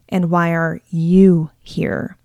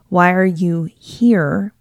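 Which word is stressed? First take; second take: you; here. First: The word you carries the main stress. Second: The word here carries the main stress. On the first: "and on you" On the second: "when you put the emphasis on here"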